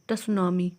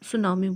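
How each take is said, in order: First: The word begins with a sounded t. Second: The word begins with an s sound. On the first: The speaker calls it wrong. "पूरा अगर आप word देखेंगे तो टसुनामी होगा" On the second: The speaker calls it right. "ट इसमें silent होता है, इसलिए हम इसको सुनामी बोलेंगे"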